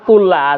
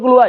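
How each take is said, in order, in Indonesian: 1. Vokal setelah l ganda adalah a. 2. Vokal setelah l ganda adalah u. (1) "kullaha salah" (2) "yang betul kulluha"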